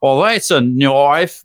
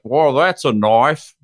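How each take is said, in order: First: Louder, very slow hammed-up Australian accent. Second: Slow, drawn-out Australian accent try; a tourist's go at an Australian accent, "Well, that's a knife.". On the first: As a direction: lean hard into the Australian accent, "Well, that's a knife.". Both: Shown as a demonstration. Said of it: "I just wanted to do my Australian accent".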